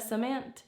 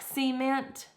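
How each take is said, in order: First: The stress is on the second syllable. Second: The stress is on the first syllable. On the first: "instead of cement" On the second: "enunciate the first parts of words like cement"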